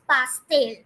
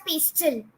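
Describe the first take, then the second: First: Pastel as pas-TEL, open a and clear e; Spanish pronunciation. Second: Pastel as PES-til, English vowels; English pronunciation. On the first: Teacher giving students the Spanish word for cake, pas-TEL. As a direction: give pastel two full vowels, pas-TEL. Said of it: "but it is pastel". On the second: Teacher warning against the English reading, pastel said PES-til. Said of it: "don't pronounce it as". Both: Shown as a demonstration.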